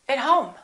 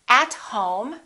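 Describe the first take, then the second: First: The word 'at' has a reduced vowel. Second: The word 'at' has a full vowel. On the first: The speaker calls it right. "we say" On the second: The speaker calls it wrong. "We don't say"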